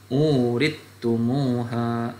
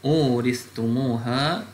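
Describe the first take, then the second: First: The th sound merges into a doubled t. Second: The th sound is pronounced before the t.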